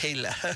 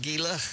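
First: The word begins with an H sound. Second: The word begins with a hard G sound. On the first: The speaker calls it right. "It's Gila" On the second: The speaker calls it wrong. "I called it Gila. ... I had that wrong"

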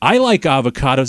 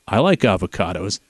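First: It is read in a playful, comic way. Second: It is read in a serious, straight way.

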